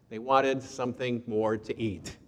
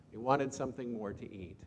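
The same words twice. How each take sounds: First: Said in the usual way. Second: Softer echo of the line; quiet repeat. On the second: Shown as a demonstration. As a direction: let it sink in, softer. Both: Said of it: "repeated softer".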